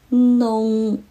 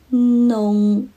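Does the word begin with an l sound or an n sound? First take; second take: n sound; n sound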